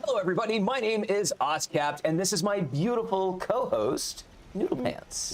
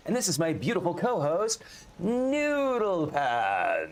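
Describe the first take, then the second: First: High put-on voice of his co-host, quick; co-host's voice. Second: High put-on voice, Noodle Pants stretched very slow; milk the name slowly in her voice; co-host's voice again, drawn out. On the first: Host introducing his co-host in her voice, high and teasing. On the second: Host redoing his co-host's intro in her voice, slow and drawn out. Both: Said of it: "She says I can't do her voice properly".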